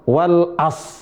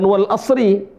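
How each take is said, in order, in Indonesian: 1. Frasa itu berakhir dengan s tanpa r. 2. Frasa itu berakhir dengan r dan vokal i. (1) "Bukan wal as" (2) "Bukan wal asri"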